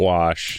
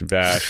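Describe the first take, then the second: First: The name begins with a W sound. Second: The name begins with a V sound. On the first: The speaker calls it wrong. "Not Wash" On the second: The speaker calls it right. "Vash with two V's"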